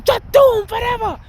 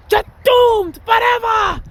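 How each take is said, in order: First: High, eerie witch voice far above his own; witch from Witches. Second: Very high, slow, drawn-out witch shriek; slow, shrieking witch, loud; shouted witch curse. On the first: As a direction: pitch it way up like a movie witch. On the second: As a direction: stretch the curse out and yell it like a movie witch. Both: Retold or imitated. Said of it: "I remember that movie, Witches".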